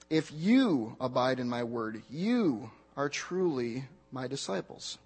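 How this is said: The stress is on the word "you". "Now move on to the next word"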